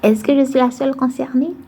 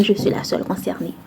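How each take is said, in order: First: "Est-ce que je suis la seule concernée" as a higher question, rising at the end; raised, questioning tune climbing through "concernée"; playful question. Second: Said in the usual way. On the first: Acted. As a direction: lift "la seule concernée" high, asking the audience. Asks audience, then answers herself.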